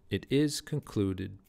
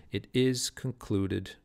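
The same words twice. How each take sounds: First: Slow "it is concluded" with "is" and "clud" stressed; scanning the meter again. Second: Slow "It is concluded" with the beat marked on "is"; scanning the meter. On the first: Teacher repeating the line to show the iamb. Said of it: "let's hear this". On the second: Teacher reading the line aloud to hear its meter. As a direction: read "It is concluded" slowly, leaning on "is" and "clud". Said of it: "let's just for fun, let's hear this". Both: Shown as a demonstration.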